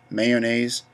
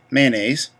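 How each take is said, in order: First: "mayonnaise" read as spelled, may-o-naise with the middle o sounded; phonetic reading. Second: "Mayonnaise" said her own southern way, man-aise, two syllables with a nasal first vowel; her real way. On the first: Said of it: "I'm reading it phonetically". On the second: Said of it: "I really say it mayonnaise". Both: Shown as a demonstration.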